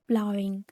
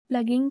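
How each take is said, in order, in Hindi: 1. पहला स्वर 'plow' वाले स्वर जैसा है। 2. पहला स्वर 'plug' वाले स्वर जैसा है। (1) "वो गलत था प्रोनाउंसिएशन, प्लाविंग" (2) "शायद मैं इसकी प्रोनाउंस गलत कर रही हूँ"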